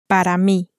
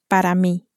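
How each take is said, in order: The two takes are said the same way.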